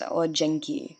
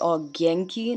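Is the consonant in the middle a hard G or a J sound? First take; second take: J; hard G. First: The middle consonant is a soft J sound. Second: The middle consonant is a hard G sound. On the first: The speaker calls it wrong. "not not Ojenki" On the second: The speaker calls it right. "It's not it actually pronounced as G"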